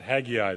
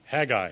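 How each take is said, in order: First: The name is said with an 'eye' sound. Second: The name is said without an 'eye' sound. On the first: The speaker calls it wrong. "not Haggai. There is no I after the" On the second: The speaker calls it right. "It is Haggai"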